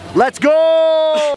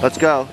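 First: It is said loudly, with urgent energy. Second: It is said flatly, without energy.

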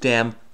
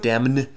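First: The word ends on the M sound only. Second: An N sound is heard after the M. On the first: The speaker calls it right. "you damn with faint praise. So definitely a silent N" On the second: The speaker calls it wrong. "You don't damn with faint praise"

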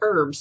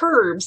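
First: It is said with an American pronunciation. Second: It is said with a British pronunciation. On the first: "instead of herbs" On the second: "I also like to say herbs"

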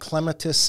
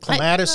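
First: The word is said the British, European way. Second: The word is said the Midwestern American way. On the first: "Clematis is kind of like British, European" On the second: "I think Clematis is a Midwest thing"

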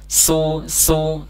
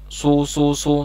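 First: The s sounds light, from a neutral mouth. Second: The s sounds heavy, with lips rounded early. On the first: The speaker calls it right. "mulai dari posisi normal" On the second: The speaker calls it wrong. "maka bunyinya akan seperti huruf sod"

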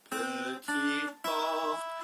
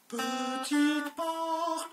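First: The voice is back at its ordinary pitch. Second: The voice is raised to a high pitch. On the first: "À moi avec ma voix normale" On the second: "À moi avec ma voix aiguë"

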